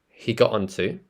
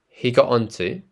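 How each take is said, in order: The two takes are said the same way.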